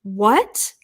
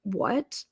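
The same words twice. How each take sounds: First: Clueless employee. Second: Low-key disbelief. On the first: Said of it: "This is what I hear back". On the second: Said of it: "I said". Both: Retold or imitated.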